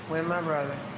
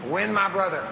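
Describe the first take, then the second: First: The phrase is said quietly and weakly. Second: The phrase is said loudly and strongly. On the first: The speaker calls it wrong. "they repeat after me and say it like this" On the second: The speaker calls it right. "if I say it strong"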